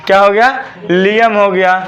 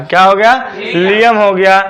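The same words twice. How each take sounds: The two takes are said the same way.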